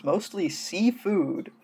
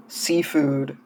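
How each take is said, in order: First: Seafood drawn out slow and higher, falling; stress on seafood. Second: Said in the usual way. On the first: Shown as a demonstration. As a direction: lean slowly on seafood as the correction. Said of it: "not even sea creatures".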